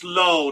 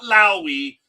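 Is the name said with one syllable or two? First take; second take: one; two. First: The name is said as one syllable. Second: The name is said as two syllables. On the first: The speaker calls it right. "It's low" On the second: The speaker calls it wrong. "not Lowy"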